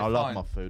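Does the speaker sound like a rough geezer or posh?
geezer. It is said in a rough working-class voice. A bloke eating a fry-up is imagined saying it. The speaker calls it right. "It's a geezer saying"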